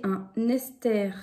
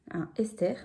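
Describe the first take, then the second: First: "un Esther" run together with an n, like "un Nesther"; liaison slip. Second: "un Esther" with no n before "Esther"; corrected without liaison. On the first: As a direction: link "un" into "Esther" with a clear n. (« un Esther » avec liaison, comme « un Nesther ») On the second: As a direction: separate "un" from "Esther", starting the name on its vowel. (« un Esther » corrigé, sans liaison) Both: Real, not acted. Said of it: "un Esther plutôt".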